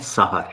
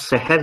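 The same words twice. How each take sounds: First: The word is pronounced as sahar. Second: The word is pronounced as sehr. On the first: The word means morning. The speaker calls it right. "सहर है" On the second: The word means magic. The speaker calls it wrong. "दुरुस्त लफ्ज़ सहर नहीं है"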